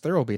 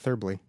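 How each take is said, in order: First: The L sound sits in its usual place. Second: The L sound is moved to another place. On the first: The speaker calls it right. "It's Thirlby" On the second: The speaker calls it wrong. "not Thirlby. / I was putting the L in the wrong spot"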